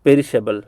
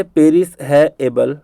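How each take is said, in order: First: Said in the usual way. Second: "पेरिस है एबल" as three separate words; broken into parts. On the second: Shown as a demonstration. Teacher helping students memorise perishable, broken into parts. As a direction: leave gaps inside "पेरिस है एबल". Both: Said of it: "याद करवाने के लिए मैं कह रहा हूँ ऐसा".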